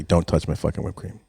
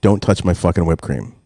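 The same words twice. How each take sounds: First: Softer, deadly serious repeat; serious warning. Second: Plain-spoken firm warning; retold warning. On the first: Retold or imitated. Parent repeats the warning to the household, dead serious. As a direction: drop the volume and mean it. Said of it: "Like, seriously". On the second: Parent warns the household about whipped cream, firm. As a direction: lay down the rule, evenly. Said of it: "I warn everybody".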